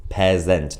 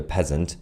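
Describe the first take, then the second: First: PEASANT with both syllables weighted, a full "zent" ending; mock-accented pronunciation. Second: Said in the usual way. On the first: Shown as a demonstration. Streamer correcting the insult for viewers, mock-accented pronunciation. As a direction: say PEASANT as "pez-ENT", second vowel unreduced. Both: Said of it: "not peasant, apparently".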